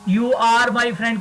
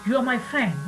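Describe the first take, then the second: First: 'Are' is said in full as a separate word. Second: 'Are' is reduced and joined to 'you'. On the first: "की जगह" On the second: "आपने क्या बोल दिया"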